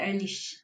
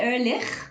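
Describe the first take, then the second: First: The name is pronounced the German way. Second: The name is pronounced the non-German way. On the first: This is how German speakers say it. "the Germans tend to say Ehrlich" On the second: This is how the speaker herself says it. "So I say Ehrlich"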